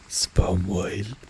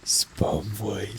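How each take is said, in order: Both takes have the same delivery.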